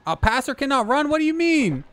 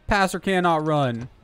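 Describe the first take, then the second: First: High, disbelieving question; surprised. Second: Said in the usual way. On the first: Real, not acted. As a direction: blurt it out in shock. Shocked at the game rule.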